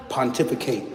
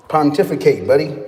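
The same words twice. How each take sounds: First: Said in the usual way. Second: Chuckling through the word; laughing. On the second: Real, not acted. Teasing a chatter who asked about trades, laughing. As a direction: laugh it out at the viewer.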